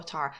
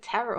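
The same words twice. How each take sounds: First: Tara with first vowel as in "car"; broad-A pronunciation. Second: Tara with first vowel as in "air"; short-A pronunciation. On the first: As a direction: say Tara as "TAR-uh". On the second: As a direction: say Tara to rhyme with Sarah. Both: Shown as a demonstration. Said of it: "Is it Tara or Tara?".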